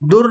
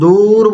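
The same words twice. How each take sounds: First: The vowel is said short and clipped. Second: The vowel is drawn out long. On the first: The speaker calls it wrong. "दूर नहीं बोलते हैं" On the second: The speaker calls it right. "वॉइस को लंबा करके बोलते हैं"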